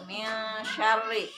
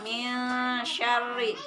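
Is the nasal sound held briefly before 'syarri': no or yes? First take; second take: yes; yes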